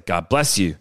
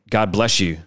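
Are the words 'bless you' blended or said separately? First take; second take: separate; blended. First: Each sound is pronounced separately and forcefully. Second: The s and y merge into a sh sound. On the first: The speaker calls it right. "which sounds like I'm being very over enunciated" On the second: The speaker calls it wrong. "you say your S's are S-H's. It kind of came out together"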